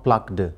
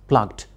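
First: The ending is not pronounced as a T sound. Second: The ending is pronounced as a T sound. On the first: The speaker calls it wrong. "If you say plucked, that is wrong" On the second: The speaker calls it right. "E-D in spelling will change into T sound"

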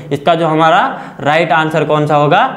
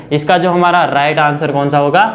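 Both takes have the same delivery.

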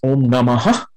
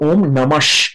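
First: The word ends with a breathy aspirated 'ha'. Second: The word ends with a short 'sh' sound. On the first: It stands alone without joining. "which is an aspirated sound. You expel some air out" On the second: It joins with the following word. "as if we are pronouncing a half SH instead of the Visargaha"

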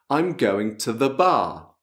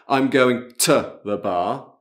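First: The stress falls after 'to', not on it. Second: The word 'to' carries the stress. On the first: The speaker calls it right. "Dobbiamo mettere l'accento sulla parola successiva" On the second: The speaker calls it wrong. "non dovete mettere l'accento su questo t. Non è"

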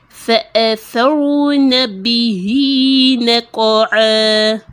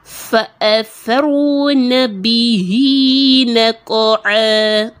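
No difference in how they are said.

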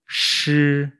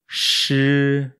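No difference in how they are said.

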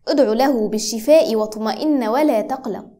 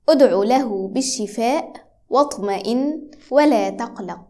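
First: It is said at normal conversational speed. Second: It is said slowly and very clearly.

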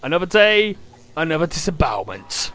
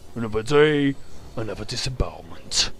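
First: It is said in the speaker's ordinary voice. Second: It is said in a put-on character voice. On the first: "Or as Duke would say" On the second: "Or I could do it in his few voice"

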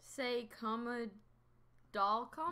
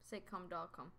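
First: The second syllable is said as 'comma'. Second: The second syllable is said as 'com'. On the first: The speaker calls it wrong. "That's not say comma" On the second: The speaker calls it right. "That's say com doll"

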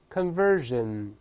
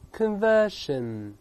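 First: The middle consonant is a voiced 'zh'. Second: The middle consonant is a voiceless 'sh'. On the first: "后面那个是变成日，这么读" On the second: "英式发音呢读在里面conversion"

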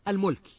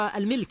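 First: The first vowel is u, as in mulk. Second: The first vowel is i, as in milk.

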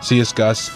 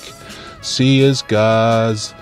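First: The word ends with an s sound. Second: The word ends with a z sound. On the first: It follows the common modern way of saying it. "everyone now says it" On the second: It follows the older traditional way of saying it. "I say it with a Z because I heard the old people used to say it"

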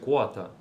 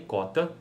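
First: The k sound is followed by a w glide. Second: The k sound has no w glide after it. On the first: "mas pode ser quota" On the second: "não é uma consoante complexa"

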